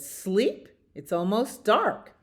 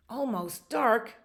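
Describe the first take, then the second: First: Higher voice, questioning first word; incredulous bird. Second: Higher, stretched echo; questioning bear. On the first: Bird answers sleepless beaver, higher incredulous voice. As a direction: query it, then point out the obvious. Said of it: "the bird said". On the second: Bear echoes the bird's news, higher dismayed voice. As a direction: repeat it in mild dismay, falling away. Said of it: "And the bear said". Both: Acted.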